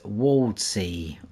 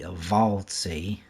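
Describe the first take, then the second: First: The name begins with a W sound. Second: The name begins with a V sound.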